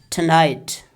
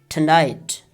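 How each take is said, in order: No difference in how they are said.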